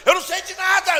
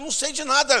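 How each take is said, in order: First: High, loud, half-laughing protest; near-shouted denial. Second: Higher and louder protest; insist, flustered and raised; loud flustered denial. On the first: Preacher overwhelmed by questions, shouting his denial. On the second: Preacher protesting to the pressing cashiers, raised and flustered. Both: Retold or imitated.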